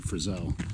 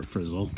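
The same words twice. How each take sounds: First: Frizzell with the stress on the second syllable; alternate pronunciation. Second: Frizzle with the stress on the first syllable; alternate pronunciation. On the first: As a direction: say Frizzell as friz-ELL. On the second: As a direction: say Frizzle as FRIZ-ul, rhyming with drizzle. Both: Shown as a demonstration. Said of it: "depending on how you pronounce it".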